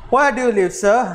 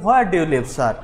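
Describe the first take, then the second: First: A raised, scolding question. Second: Said in the usual way. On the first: A narrator's reading. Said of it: "scolded Ramon at last in old man's ear". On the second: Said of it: "Now at last Ramon asked him".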